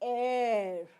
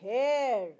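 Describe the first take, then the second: First: The word starts with no H sound. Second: The word starts with a pronounced H sound. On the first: The speaker calls it right. "It is" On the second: The speaker calls it wrong. "We do not say"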